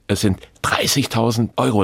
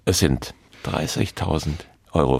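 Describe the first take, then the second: First: No pause; the amount is said louder. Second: A clear pause comes before the amount. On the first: "dann werde ich lauter" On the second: "wenn ich die Pause mache"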